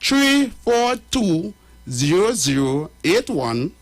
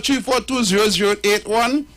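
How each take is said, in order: First: The number is read out slowly. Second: The number is read out quickly.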